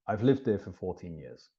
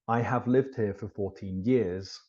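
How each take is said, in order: First: The word have is contracted to 've. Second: The word have is said in full. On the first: It sounds natural and neutral. The speaker calls it right. "So you do want to contract all auxiliary verbs" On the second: It sounds formal, as if emphasizing the sentence. The speaker calls it wrong. "if I say it in an uncontracted way, it sounds a little bit strange, sounds too formal"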